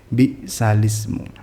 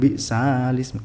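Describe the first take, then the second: First: The vowel after the s is kept short. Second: The vowel after the s is drawn out long. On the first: The speaker calls it right. "tapi bisalismu" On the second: The speaker calls it wrong. "Kenapa nggak panjang? ... jadi bukan bisalismu"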